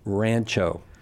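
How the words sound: The word is said with an Anglo pronunciation. "that's very Anglo"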